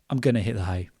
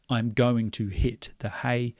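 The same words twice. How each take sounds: First: The words are blended together into reduced forms. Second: Each word is said separately and fully. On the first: The speaker calls it right. "generally we blend that together" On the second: The speaker calls it wrong. "We don't say"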